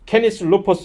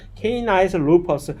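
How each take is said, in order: First: The first word sounds like 'keh-nis', Latin style. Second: The first word sounds like 'kay-nice', English style. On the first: The speaker calls it right. "정확한 라틴어식 발음이 되는데" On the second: The speaker calls it wrong. "분명히 이렇게"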